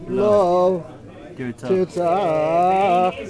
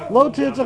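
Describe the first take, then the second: First: There is a pause after the first word. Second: The two words run together without a pause. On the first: No; you shall murder. "What if there's an esnachta under the life?" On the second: Do not murder. "Lo tirtzach means thou shalt not murder"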